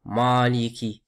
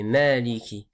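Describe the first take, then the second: First: "Maliki" with a dark, open "maa"; faulty demo, heavy "Maaliki"; heavy vowel. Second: "Maliki" with a light "mae" vowel; thin the first vowel of "Maliki" toward è; careful "Mèliki". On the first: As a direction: darken the first vowel of "Maliki". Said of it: "c'est pas". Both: Shown as a demonstration.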